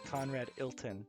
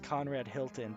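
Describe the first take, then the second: First: The H at the surname's start is dropped. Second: The H at the surname's start is pronounced.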